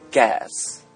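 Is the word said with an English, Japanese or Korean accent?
English. It is said with an English pronunciation. "英語で言うとガス"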